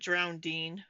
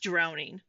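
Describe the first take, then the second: First: The word has an extra d sound. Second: The word has no extra d sound. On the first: The speaker calls it wrong. "It's not drowning" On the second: The speaker calls it right. "It's just it's just drowning. There's no there's no second D"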